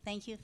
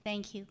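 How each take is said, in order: Both takes have the same delivery.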